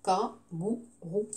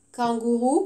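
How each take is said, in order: First: "Kangourou" slow and soft in three separate beats, kan-gou-rou; split into syllables. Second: Said in the usual way. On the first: Shown as a demonstration. Teacher counting syllables for the class, "Kangourou" syllable by syllable. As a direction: say "Kangourou" low and slow, gap after each syllable. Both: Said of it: "combien de syllabes?".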